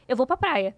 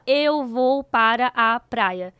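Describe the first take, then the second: First: The phrase is shortened, para a becoming pra. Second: Every word is said in full, para a unreduced. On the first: The speaker calls it right. "eles abreviam e cortam tudo" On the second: The speaker calls it wrong. "A gente não fala"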